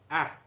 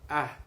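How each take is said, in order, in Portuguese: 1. A vogal é tensa, com a língua para a frente. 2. A vogal é tensa, com a língua para a frente.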